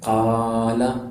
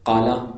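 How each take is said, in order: First: The first vowel is drawn out long. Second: The first vowel is said short. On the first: The speaker calls it right. "زبر کو تھوڑا سا کھینچ دینا ہے" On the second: The speaker calls it wrong. "یہ تو غلط ہو گیا"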